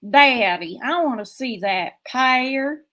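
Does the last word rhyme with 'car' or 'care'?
care. The last word rhymes with 'care'. This is how it is said in the speaker's home region. "where I come from, it'd be"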